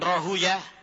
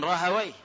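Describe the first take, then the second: First: The name ends with the sounds 'uyah'. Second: The name ends with the sounds 'waih'. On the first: This is the form hadith scholars usually use. "ada sebagian menyebutkan Rahuyah" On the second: This is the other common form of the name. "ada yang mengatakan Rahawaih"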